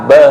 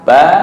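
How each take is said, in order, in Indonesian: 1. Vokalnya bergeser menjadi bunyi E. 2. Vokalnya bunyi A terbuka. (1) "tapi dibaca ba fathah be" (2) "harusnya fathah A"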